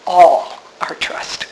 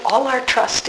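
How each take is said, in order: First: "All" drawn out and set apart; stress on ALL. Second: Said in the usual way. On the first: Shown as a demonstration. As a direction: slowly stress "All", then let the rest drop. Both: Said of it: "the emphasis is on the word all".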